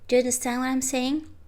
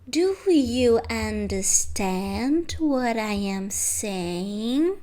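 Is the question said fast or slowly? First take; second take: fast; slowly. First: It is said fast with words run together. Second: It is said slowly with each word separate. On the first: The speaker calls it right. "Because you say it fast" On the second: The speaker calls it wrong. "It doesn't sound natural"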